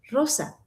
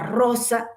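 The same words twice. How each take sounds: First: The R is soft and simple. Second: The R is exaggeratedly trilled. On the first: The speaker calls it right. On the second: The speaker calls it wrong. "yo pronuncio la R perfecta"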